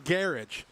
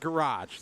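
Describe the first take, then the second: First: It is said with an English pronunciation. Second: It is said with an Australian pronunciation. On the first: "England, it's a garage" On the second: "Down here, it's a garage"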